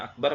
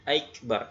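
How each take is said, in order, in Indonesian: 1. Kata ini tidak memiliki glide sebelum k. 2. Glide 'y' disisipkan sebelum k. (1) "harusnya akbar" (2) "menambah huruf ya sukun sebelum huruf kaf"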